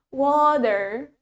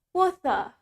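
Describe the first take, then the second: First: American accent, with the T sounding like D. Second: British accent, with a clear T and no R. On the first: "in American English, we say it water, water, pakai D" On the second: "in British, we say it water"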